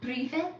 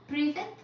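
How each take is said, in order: Both takes have the same delivery.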